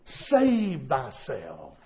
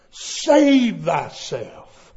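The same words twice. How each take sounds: First: Low, slow, hushed save thyself; low slow warning. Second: Slow emphatic repeat. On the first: Preacher lowering voice on the phrase, slow and hushed. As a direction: let Save drawn out low and quiet. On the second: Preacher repeating the phrase slowly and firmly. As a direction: Save drawn out very slowly at full voice. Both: Shown as a demonstration.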